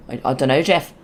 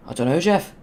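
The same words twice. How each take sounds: First: A first, off-target try at the meme line; wrong meme voice. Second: A light put-on of the meme line, rising on Jeff; a closer but still mild meme voice; meme impression. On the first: Retold or imitated. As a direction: miss the voice, say it near your own. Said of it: "that's not the right voice". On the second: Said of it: "Doesn't sound like it at all, but it's more accurate".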